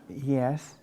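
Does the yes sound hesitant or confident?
hesitant. It is said hesitantly and unconvincingly.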